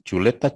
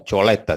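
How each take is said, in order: First: Chuleta said plainly with u; chuleta, the standard form with u; correct word. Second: Choleta said with o instead of u; choleta, imitating the wrong o sound; mispronounced word. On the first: (chuleta pronunciada con u) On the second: (choleta con o en vez de u) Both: Shown as a demonstration. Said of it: "En vez de decir chuleta".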